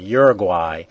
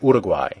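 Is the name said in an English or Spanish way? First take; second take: English; Spanish. First: The name is said with English-style sounds. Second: The name is said with Spanish-style sounds. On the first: This is how it was taught in school. "As a kid, I used to learn Uruguay" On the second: This is how local speakers say it. "when I hear people say it, it's more Uruguay"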